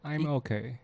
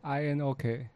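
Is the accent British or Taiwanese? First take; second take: British; Taiwanese. First: It is said in a British accent. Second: It is said in a Taiwanese accent.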